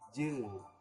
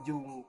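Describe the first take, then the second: First: The vowel is a blended eu sound. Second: The vowel sounds like a clear u. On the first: The speaker calls it right. "tapi jeng" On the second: The speaker calls it wrong. "bukan jung"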